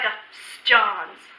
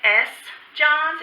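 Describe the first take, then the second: First: The vowel of the article is cut short. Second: The vowel of the article is fully pronounced. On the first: The speaker calls it right. "Just kind of cut off the E there" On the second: The speaker calls it wrong. "We don't really say"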